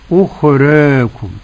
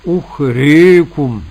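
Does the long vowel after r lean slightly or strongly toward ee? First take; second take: slightly; strongly. First: The long a leans slightly toward ee. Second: The long a leans strongly toward ee. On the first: "التقليل ... أن تنحو بالفتحة نحو الكسرة قليلا" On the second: "هذه الإمالة الكبرى"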